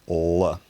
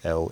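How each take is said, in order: First: The L is dark and velarized. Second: The L is clear, without velarization. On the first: "dark L is L, and it's what we call velarized" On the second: "clear L is L"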